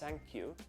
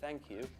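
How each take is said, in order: First: The th sound is said like an s. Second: The th sound is said as a normal th. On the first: "That's thank you instead of" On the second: "instead of thank you"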